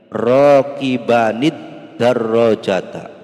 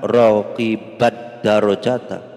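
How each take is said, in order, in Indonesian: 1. Bunyi n dengan vokal pendek menyambungkan kedua kata. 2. Bunyi n hilang dan kedua kata menyatu. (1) "cara bacanya ditambah ini"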